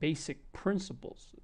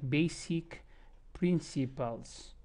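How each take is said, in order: First: The unstressed vowels almost disappear. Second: Every vowel is pronounced fully and clearly. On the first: This is how American speakers sound. "as if they don't even exist" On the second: This is how non-native speakers sound. "many times that's how my students sound"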